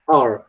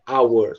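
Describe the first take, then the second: First: It is reduced to sound like 'are'. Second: It is said fully, like 'hour'. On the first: The word is said inside a sentence. "quando a gente encontra essa palavra numa frase... tende a pronunciar are" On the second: The word is said on its own. "quando a gente vai pegar essa palavra e a gente vai pronunciar separadamente"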